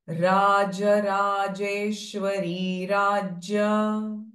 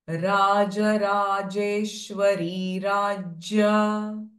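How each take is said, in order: The two takes are said the same way.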